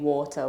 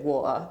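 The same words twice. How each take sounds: First: The t in the middle is clearly pronounced. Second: The t in the middle is dropped. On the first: "Instead of saying water" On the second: "we drop our T's"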